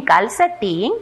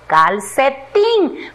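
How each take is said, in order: First: Said in the usual way. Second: "calcetín" slow, in three parts: cal, ce, tín; separado en sílabas. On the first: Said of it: "Primero vamos a leer". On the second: Shown as a demonstration. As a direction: stretch and separate each syllable of "calcetín". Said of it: "luego vamos a separar en sílabas". ("calcetín" despacio, sílaba por sílaba)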